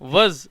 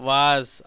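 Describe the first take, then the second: First: The vowel is short and light. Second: The vowel is long and open. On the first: The speaker calls it right. "వజ్ అని పలకాల్సింది" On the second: The speaker calls it wrong. "వాజ్ అంటున్నారు"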